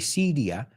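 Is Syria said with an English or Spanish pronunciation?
Spanish. It is said with a Spanish pronunciation. This is how Spanish speakers say it. "you say Syria"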